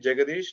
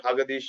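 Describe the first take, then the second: First: The name begins with a J sound. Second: The name begins with an H sound. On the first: The speaker calls it right. "you can call me Jagadish" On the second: The speaker calls it wrong. "or Hagadish like like Spanish"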